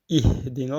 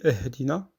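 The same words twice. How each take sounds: First: The first vowel sounds like i. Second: The first vowel sounds like e. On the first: The speaker calls it right. "mais c'est un I" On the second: The speaker calls it wrong. "on lit très mal, on dit Ihdina. C'est pas un E"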